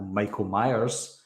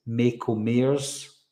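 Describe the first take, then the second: First: Said in the usual way. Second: "Michael Myers" turned into "Mako Mayers"; "Michael Myers" as a confused listener hears it, "MAY-ko MAY-ers"; misheard pronunciation. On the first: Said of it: "So with me saying". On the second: Shown as a demonstration. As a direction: say "Michael Myers" with "ay" vowels in place of "eye". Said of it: "all they can hear is".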